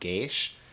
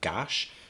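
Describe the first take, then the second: First: The vowel is an 'ay' sound. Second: The vowel is a short 'a' sound. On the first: "It's probably pronounced gaish" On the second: "I'm pronouncing it Gash"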